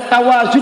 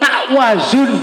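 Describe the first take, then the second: First: The first syllable flows smoothly into the next. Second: A stop sound follows the first syllable. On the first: The speaker calls it right. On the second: The speaker calls it wrong.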